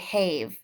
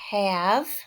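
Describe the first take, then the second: First: The vowel is long, like the letter name A. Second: The vowel is short, as in the word cat. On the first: The speaker calls it wrong. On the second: The speaker calls it right.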